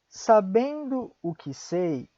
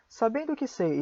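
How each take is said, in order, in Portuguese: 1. É dita devagar. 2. É dita rapidamente. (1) "uma vez devagar" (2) "Mais rápido"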